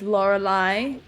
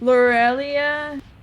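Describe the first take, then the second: First: The name ends with an "eye" sound. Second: The name ends with an "ee-ah" sound. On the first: The speaker calls it wrong. "I read that as Lorelai" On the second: The speaker calls it right. "wrong from the beginning"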